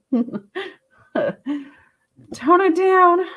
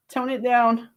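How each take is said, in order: First: "Tone it down" lifted high and teasing, with a laugh on "Tone". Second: Said in the usual way. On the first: Shown as a demonstration. Reader teasing the viewer to calm down, in a high playful voice. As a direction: squeak out "Tone it down" playfully. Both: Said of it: "tone it down a bit".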